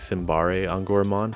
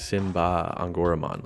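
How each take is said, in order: First: The first part has three syllables, ending 'bare'. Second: The first part has two syllables, ending 'ba'. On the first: The speaker calls it wrong. "we had all been saying Simbare Angoramon for months based on the katakana" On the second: The speaker calls it right. "they're saying Simba Angoramon, like Simba from Lion King"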